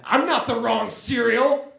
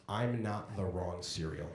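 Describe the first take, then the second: First: Higher, louder and slow, clearly yelled; indignant drunk shout. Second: Softer and slow, deflated; sheepish last words. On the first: Storming out of a drunk friend's apartment, shouting. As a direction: shout it back, offended and drunk. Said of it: "I said". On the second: Replaying the last words before dying, softly. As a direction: mutter it like sad final words. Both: Retold or imitated.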